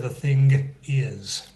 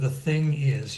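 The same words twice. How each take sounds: First: A hard G sound is released after ng. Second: The ng ends without any released G sound. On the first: The speaker calls it wrong. "You don't hear the thing is" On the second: The speaker calls it right. "you don't let out the G sound"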